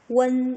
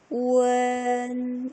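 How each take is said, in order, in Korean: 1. 이 음절은 빠르게 이어서 말한다. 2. 이 음절은 천천히 늘여서 말한다.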